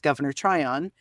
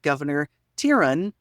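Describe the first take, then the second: First: The name sounds like 'try-on', r after t. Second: The name sounds like 'tie-rone', r after vowel. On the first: The speaker calls it right. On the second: The speaker calls it wrong.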